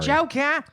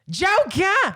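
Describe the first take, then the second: First: It is said flatly, without enthusiasm. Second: It is said loudly, with enthusiasm.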